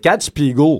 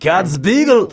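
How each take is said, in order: First: It is said with a Quebec accent. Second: It is said with a German accent.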